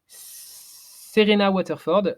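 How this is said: The name is said with a French accent. "je ne prononce pas avec l'accent"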